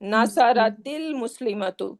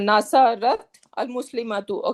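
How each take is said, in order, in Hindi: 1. 't' में i स्वर आता है, और आगे जुड़ जाता है। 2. 't' बिना किसी स्वर के बंद होता है, 'al' से पहले। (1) "it's gonna be Nasaratil" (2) "I cannot say Nasarat al Muslimatu"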